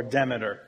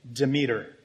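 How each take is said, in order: First: "Demeter" as DEM-uh-ter; first-syllable stress. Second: "Demeter" as duh-MEE-ter; second-syllable stress. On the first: Preacher offering another pronunciation, "Demeter" said DEM-uh-ter. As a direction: stress the start of "Demeter", short e. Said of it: "emphasis is on the first or last syllable". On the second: Preacher naming a Greek goddess, "Demeter" said duh-MEE-ter. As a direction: stress the middle of "Demeter", long ee. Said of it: "It's one pronunciation or the other". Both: Shown as a demonstration.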